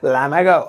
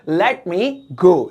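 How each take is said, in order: First: The words are shortened and run together. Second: Each word is said fully and separately.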